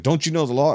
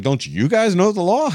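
First: Mildly raised mock scolding of Don't you know the law; a touch of a higher yell on the word know, rising at the end; cyclists yelling at him. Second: Much higher, louder sarcastic echo of Don't you guys know the law; mocking comeback. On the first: Retelling cyclists yelling the law at him, mild mock scold. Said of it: "they're sitting there yelling". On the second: Turning the cyclists' own words back on them, high sarcastic echo. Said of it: "I was like".

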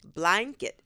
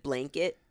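First: BLANKET said as bly-nket; child's version of blanket; daughter's blanket. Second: Said in the usual way. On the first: Retold or imitated. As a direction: open the first vowel of blanket toward eye. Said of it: "our daughter says". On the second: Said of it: "instead of".

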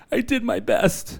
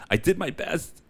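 First: Much higher, squeaky repeat. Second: Said in the usual way. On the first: Shown as a demonstration. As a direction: squeak it out playfully.

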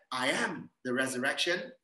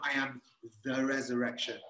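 First: "I am" stressed, rising on AM. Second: Pause, then a weighty "the resurrection"; stress on THE RESURRECTION. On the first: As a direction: lean on "I am", let "the resurrection" follow. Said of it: "Is the emphasis that I am". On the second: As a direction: set "the resurrection" apart after a short pause. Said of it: "emphasis on the resurrection". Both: Shown as a demonstration.

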